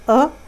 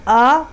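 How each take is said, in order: First: The vowel is short and clipped. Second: The vowel is drawn out long. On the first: The speaker calls it right. "हमज़ा ही पढ़ें, अलिफ या वाव को ना पढ़ें" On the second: The speaker calls it wrong. "तो ये गलत हो जाएगा"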